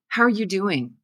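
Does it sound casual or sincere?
sincere. It is said as a sincere, caring question.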